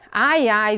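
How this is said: It is said in an indignant, annoyed way. The person is outraged by something. "Ai ai também pode servir de indignação"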